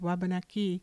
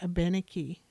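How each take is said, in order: First: The word begins with a W sound. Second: The word begins with a vowel sound. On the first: This is the people's own name for themselves. "They took the word Wabanaki" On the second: This form comes from French speakers. "The French, however, had no sound for W"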